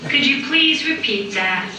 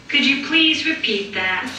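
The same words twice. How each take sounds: No difference in how they are said.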